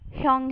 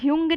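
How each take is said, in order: First: The vowel sounds like 'yo'. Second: The vowel sounds like 'yoo'. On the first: The speaker calls it right. "ह्योंग है" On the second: The speaker calls it wrong. "ह्यूंग नहीं है"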